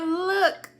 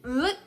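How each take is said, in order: First: Look, laughing and half crying; nervous laugh through the word. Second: Said in the usual way. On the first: Retold or imitated.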